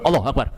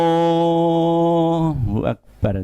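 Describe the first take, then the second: First: It is said very fast. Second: It is said very slowly.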